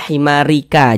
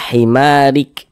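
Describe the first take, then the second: First: The word ends with an added a vowel. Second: The word ends on a bare k consonant. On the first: The speaker calls it wrong. "jangan dibaca himarika" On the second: The speaker calls it right. "kita baca himarik"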